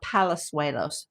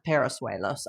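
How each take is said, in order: First: The second consonant is an L sound. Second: The second consonant is an R sound. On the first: The speaker calls it right. "It's Carlos uh, Palazuelos" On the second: The speaker calls it wrong. "not Parasuelos"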